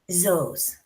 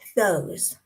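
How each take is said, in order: First: The word starts with a z sound. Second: The word starts with a th sound. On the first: "or a Z" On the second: "the T H sound, the th"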